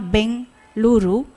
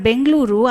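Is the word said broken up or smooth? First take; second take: broken; smooth. First: The word is broken by a pause inside. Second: The word is said in one smooth stretch. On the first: The speech is impaired. The speaker calls it wrong. "there could be a break" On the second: The speech is normal. The speaker calls it right. "I have to say it with a, in a continuous stretch"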